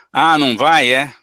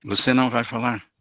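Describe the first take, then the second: First: Loud sarcastic jab; how not to answer: loud mocking irony; loud, angry irony. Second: Calm low tone. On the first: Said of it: "tô falando alto, bravo e com ironia". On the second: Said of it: "esse é o tom. Um tom baixo". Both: Shown as a demonstration.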